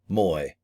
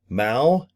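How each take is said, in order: First: The name ends with an 'oy' vowel sound. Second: The name ends with an 'ow' vowel sound. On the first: The speaker calls it right. "It is actually Moy" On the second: The speaker calls it wrong. "I was saying Mao"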